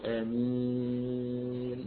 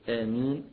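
First: The final long vowel is held for six counts. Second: The final long vowel is held for two counts. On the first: "ست حركات" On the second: "حركتين"

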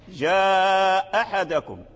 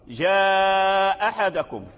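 No difference in how they are said.

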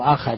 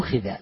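First: The vowels are a then a: akhadha. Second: The vowels are u then i: ukhidha. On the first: He took it. The speaker calls it wrong. "مو أخذ" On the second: He was required to do it. The speaker calls it right. "أخذ يعني طولب"

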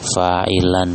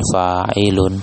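First: The word ends with the vowel sound -an. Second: The word ends with the vowel sound -un. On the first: The speaker calls it right. "ini yang tepatnya fa'ilan ya" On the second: The speaker calls it wrong. "bukan fa'ilun"

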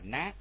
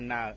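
First: The syllable is short with a rising pitch. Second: The syllable is said with a level pitch. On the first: The speaker calls it right. "không có dấu, chúng ta đọc là ná" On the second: The speaker calls it wrong. "nếu mà chúng ta đọc tiếng Việt là na"

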